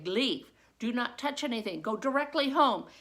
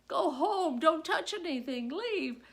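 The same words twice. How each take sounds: First: Loud, clipped commands; teacher sending the class home firmly; firm orders. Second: Higher, louder rushed commands; frantic dismissal; teacher frazzled as date watches; urgent orders. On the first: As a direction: get them out now. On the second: Same orders repeated in story. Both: Retold or imitated.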